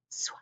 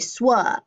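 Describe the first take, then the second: First: The blend ends without any added vowel. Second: The blend ends with an added vowel sound. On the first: The speaker calls it right. "it says sw" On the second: The speaker calls it wrong. "I don't say swa and add the U at the end"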